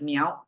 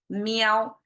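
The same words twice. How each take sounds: First: The syllable has a changing, non-level tone. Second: The syllable has a flat, level tone. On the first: "the farm field pronounced as meow" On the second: "keep the sound of meow and the tone of mao together. It becomes meow"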